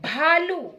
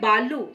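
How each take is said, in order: First: The first consonant has a strong breath puff. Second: The first consonant is plain, without a breath puff. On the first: The speaker calls it right. "Ma'am भा कह रही हैं" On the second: The speaker calls it wrong. "अपना उच्चारण गलत है"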